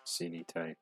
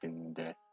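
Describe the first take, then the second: First: The word has three full syllables. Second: The middle vowel drops, leaving two syllables. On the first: This is the original form of the word. "originally it was" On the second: This is the modern form of the word. "nowadays it's"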